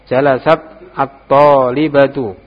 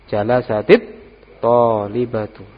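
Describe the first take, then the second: First: The words are said without a linking 'i' vowel. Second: The words are linked with an added 'i' vowel.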